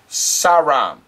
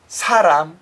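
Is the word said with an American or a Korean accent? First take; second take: American; Korean. First: It is said with an American accent. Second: It is said with a Korean pronunciation. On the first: The speaker calls it wrong. "But then the American goes" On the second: The speaker calls it right. "in Korean, it's"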